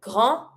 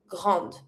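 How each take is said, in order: First: Grand ending on a nasal vowel; French "grand" as grahn; silent final D. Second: Grande with the D released; French "grande" as grahnd; sounded final D. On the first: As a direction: drop the D from "grand". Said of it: "don't pronounce the D". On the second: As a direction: end "grande" on a D. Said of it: "in front of my mute E. I pronounce". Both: Shown as a demonstration.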